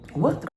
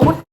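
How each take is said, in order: First: It is said at a normal, calm volume. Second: It is screamed loudly with high energy.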